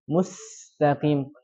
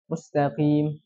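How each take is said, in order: First: The s is said with a lot of breath. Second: The s is said with little breath. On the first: The speaker calls it right. "Harusnya dialirkan dengan banyak sekali udara yang keluar" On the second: The speaker calls it wrong. "Tapi dia bacanya"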